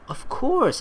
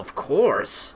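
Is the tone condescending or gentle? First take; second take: gentle; condescending. First: It is said in a gentle, caring tone. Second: It is said in a condescending tone. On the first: The speaker is happy to help. "in a gentle, caring way" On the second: The answer seems obvious to the speaker. "can sometimes sound like you're saying it in a condescending way"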